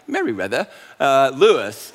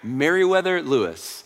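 First: It is said in a put-on British accent. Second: It is said in his normal American accent.

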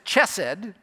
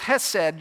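First: It begins with an English ch sound. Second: It begins with a plain soft h sound. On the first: "if you pronounce that as chesed" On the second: "you drop the C and pronounce it as chesed"

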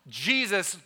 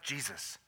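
First: The word is screamed very loudly. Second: The word is said at moderate volume. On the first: "screaming at the top of my lungs" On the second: "It was a little louder"

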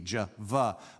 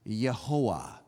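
First: The name begins with a J sound. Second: The name begins with a Y sound. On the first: "J and V" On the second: "in most languages, you would pronounce this Yehoah"

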